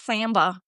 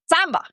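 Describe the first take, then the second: First: The first vowel is flattened, as in American English. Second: The first vowel is an open a sound. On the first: "I don't say it like Samba" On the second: "Like it's more like open a"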